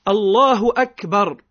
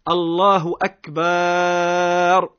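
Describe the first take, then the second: First: The vowel between b and r is short. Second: The vowel between b and r is drawn out long. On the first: It praises God's greatness. The speaker calls it right. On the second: It turns the word into 'drums', changing the meaning. The speaker calls it wrong.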